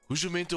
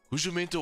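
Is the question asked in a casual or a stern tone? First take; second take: stern; stern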